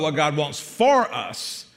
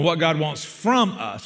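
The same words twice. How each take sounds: First: "for" singled out for contrast; stress on FOR. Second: "from" singled out for contrast; stress on FROM. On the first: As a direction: put the weight on "for", not on "us". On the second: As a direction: put the weight on "from", not on "us". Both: Real, not acted.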